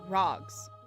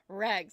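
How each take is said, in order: First: It is said in a posh British accent. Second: It is said in the speaker's own accent.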